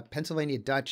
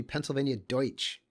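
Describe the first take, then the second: First: Said in the usual way. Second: "Deutsch" said the German way, like "doytch"; German pronunciation. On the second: Shown as a demonstration. Correcting the map's name to the German Deutsch, said the German way. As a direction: give "Deutsch" its German "oy" vowel. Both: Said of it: "it's actually Pennsylvania Deutsch".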